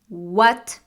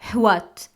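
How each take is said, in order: First: It starts with a plain w sound, no h. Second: It starts with a breathy h before the w. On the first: The speaker calls it right. "The correct pronunciation is what" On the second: The speaker calls it wrong. "not what. There is no h sound"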